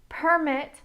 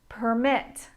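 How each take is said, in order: First: The stress is on the first syllable. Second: The stress is on the second syllable. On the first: It is used as a noun. "Permit is a noun. ... with nouns, the stress is in the first syllable" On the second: It is used as a verb. "My intonation goes up when I say the verb"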